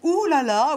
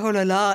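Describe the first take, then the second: First: It sounds excited and suggestive, the Anglo-Saxon way. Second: It sounds deflated and disappointed, the French way.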